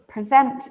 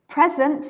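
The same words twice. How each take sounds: First: The stress is on the second syllable. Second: The stress is on the first syllable. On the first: To show something to everyone. "present means to show everyone a presentation" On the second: Someone is here, or it is now. "Present means I am here"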